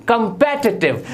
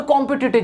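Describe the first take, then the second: First: कॉम्पिटिटिव as "kum-PET-i-tiv"; stressed "PET" in कॉम्पिटिटिव; correct pronunciation. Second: कॉम्पिटिटिव as "KOM-pi-ti-tiv"; full o and short i in कॉम्पिटिटिव; wrong pronunciation. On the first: Teacher repeats for learners, कॉम्पिटिटिव said "kum-pet-i-tiv". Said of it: "जबकि ये होता है". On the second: Teacher mimics what everyone says, कॉम्पिटिटिव with "kom-pi". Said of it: "हर कोई बोलता है". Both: Shown as a demonstration.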